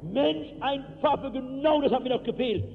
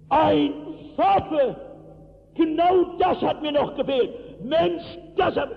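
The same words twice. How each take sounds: First: A mild mock yell; retelling the shout softened for the microphone; toned-down shout. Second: Yelled high and loud; a young miner roaring at the new pastor, loud shout. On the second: Retold or imitated. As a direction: throw your hands up and bellow it. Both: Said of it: "also ich kann nicht so schreien".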